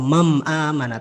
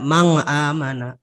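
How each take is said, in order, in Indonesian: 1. Nun dibaca dengan bunyi m. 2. Nun dibaca dengan bunyi ng. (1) "atau mam amana" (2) "tidak mang amana"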